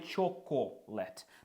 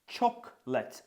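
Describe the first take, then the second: First: The word is spoken with three syllables. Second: The word is spoken with two syllables. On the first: The speaker calls it wrong. "а не чоколет" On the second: The speaker calls it right. "Це всього лише два склади"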